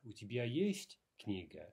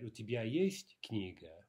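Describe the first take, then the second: First: Есть emphasized, falling at the end; stress on есть. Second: Есть clearly emphasized in the question; stress on есть. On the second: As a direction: lean on есть as the point of the question. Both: Shown as a demonstration. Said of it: "we would have to stress, we would have to emphasize the есть".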